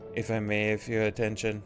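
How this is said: It is read in a robotic, mechanical voice.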